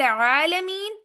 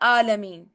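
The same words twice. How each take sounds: First: It begins with a tight throat 'ain' sound. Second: It begins with a plain glottal stop. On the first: "आइन" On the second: "अलिफ आ, हमजा आ गया"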